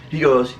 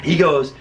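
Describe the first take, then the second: No difference in how they are said.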